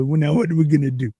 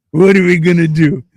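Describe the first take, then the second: First: Said in the usual way. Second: "What are we gonna do?" higher and much louder; emphatic repeat. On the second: Retold or imitated. Retold question repeated with force.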